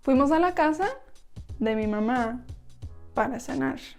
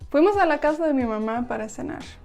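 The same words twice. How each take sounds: First: The sentence is spoken slowly. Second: The sentence is spoken very quickly.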